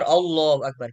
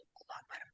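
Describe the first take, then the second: First: The phrase is spoken aloud with clear voice. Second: The phrase is only mouthed, barely voiced. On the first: The speaker calls it right. "Kita mengucapkan" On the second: The speaker calls it wrong. "hanya diam atau hanya isyarat mulut"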